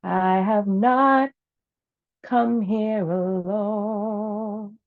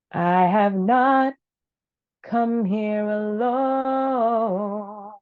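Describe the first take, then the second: No difference in how they are said.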